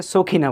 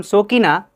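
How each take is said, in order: First: "সখিনা" with a breath of air after k; native-speaker aspirated kh. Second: "সকিনা" with a plain k, no puff; unaspirated k. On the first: Teacher shows native speaker's version, aspirated "সখিনা". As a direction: aspirate the middle sound of "সখিনা". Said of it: "native speaker এসে সখিনা বলে". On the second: Teacher gives the local name, plain k in "সকিনা". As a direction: keep the middle ক of "সকিনা" unaspirated. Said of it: "যার নাম সকিনা". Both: Shown as a demonstration.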